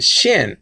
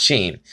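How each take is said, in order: First: "shin" with a short i; short-vowel pronunciation. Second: "sheen" with a long ee; long-vowel pronunciation. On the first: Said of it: "Some people pronounce it shin". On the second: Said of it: "and not sheen". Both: Shown as a demonstration.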